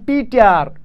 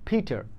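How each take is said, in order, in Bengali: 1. প্রথম P উচ্চারিত হয় বাতাসের ফোঁস ছাড়া। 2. প্রথম P উচ্চারিত হয় বাতাসের ফোঁস সহ।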